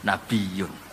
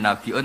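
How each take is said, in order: First: The word has a y-glide before the ending. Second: The word has a glottal stop before the ending. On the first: This is the lightened reading without the hamzah. "jenenge takhfif" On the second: This is the reading with the hamzah. "Hamzah digenti"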